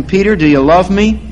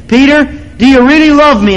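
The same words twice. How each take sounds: First: Said in the usual way. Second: Higher and louder, stress on really; Jesus asking again, more urgently; pleading Jesus. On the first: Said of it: "how the Lord Jesus asked him". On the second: Retold or imitated. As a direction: press Peter harder the second time. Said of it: "Jesus said it again".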